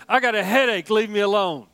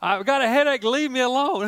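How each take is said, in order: First: A hint of a whiny three-year-old; mock the toddler's grumbling; grumpy toddler. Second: A hint of a whiny three-year-old; mock the toddler's grumbling again; grumpy toddler. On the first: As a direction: grandfather imitating his grandson's complaint, lightly whiny. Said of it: "He said". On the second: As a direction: grandfather repeating the toddler's line, lightly whiny. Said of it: "I mean, he said".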